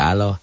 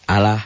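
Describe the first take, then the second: First: The 'l' is heavy and thick. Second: The 'l' is light and thin. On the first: The speaker calls it wrong. "jangan Allah" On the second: The speaker calls it right. "Lafaz Allah dibaca tarkik atau tipis berbunyi Allah. Allah ya"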